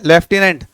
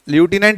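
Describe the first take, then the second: First: It is said with British pronunciation, lef-tenant. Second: It is said with American pronunciation, loo-tenant.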